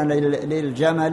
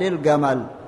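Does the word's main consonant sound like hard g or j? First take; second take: j; hard g. First: The word is said with a j sound. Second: The word is said with a hard g sound.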